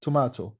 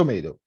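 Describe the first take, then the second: First: Tomato as "tuh-MAH-toh"; British pronunciation. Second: Tomato as "tuh-MAY-doh"; American pronunciation. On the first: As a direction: give Tomato a long British AH. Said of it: "بالبريتش أو بالآيرش". (نطق Tomato بالبريطاني "توماتو") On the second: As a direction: give Tomato the American AY in the middle. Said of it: "بالأمريكان". (نطق Tomato بالأمريكي "توميدو") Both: Shown as a demonstration.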